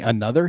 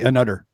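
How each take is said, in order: First: The middle consonant is a soft th sound. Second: The middle consonant is a hard d sound. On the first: "instead of saying another" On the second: "there's no T H, it's all D"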